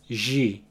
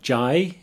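First: The middle syllable has an 'ee' vowel. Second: The middle syllable has an 'eye' vowel. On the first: This is the Portuguese pronunciation. "it's ji" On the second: This is the English pronunciation. "Instead of jai"

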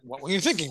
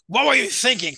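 First: It sounds like a genuine, curious question. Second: It sounds exasperated and accusing.

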